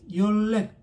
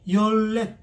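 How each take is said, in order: Both takes have the same delivery.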